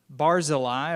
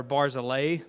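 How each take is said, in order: First: Barzillai ending in an "eye" sound; pronunciation variant. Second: Barzillai ending in an "ay" sound, like "day"; alternative pronunciation. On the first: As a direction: say Barzillai as BAR-zil-eye. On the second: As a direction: say Barzillai as BAR-zil-ay. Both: Shown as a demonstration. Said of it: "depending on the pronunciation".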